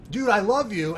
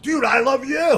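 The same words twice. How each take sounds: First: A touch of gushing. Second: Excited shout back. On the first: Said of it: "I think he said something like". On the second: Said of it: "I gave it back to him". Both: Retold or imitated.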